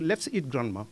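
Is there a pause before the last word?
no. The words run together without a pause. The speakers want to eat their grandmother. "Mangeons grand-mère"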